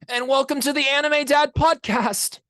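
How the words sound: It is said as a Tanjiro Kamado impression.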